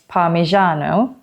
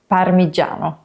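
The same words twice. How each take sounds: First: The middle consonant sounds like 'zh' in Asian. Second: The middle consonant sounds like 'j' in jam. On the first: The speaker calls it wrong. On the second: The speaker calls it right. "in Italian it's a J, like in aging"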